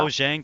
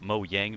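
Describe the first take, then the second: First: The middle consonant sounds like English j. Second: The middle consonant sounds like a y. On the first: This is how most people say it. "Everyone calls it" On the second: This is how it is said in Sweden. "call it Mojang because they're Swedish"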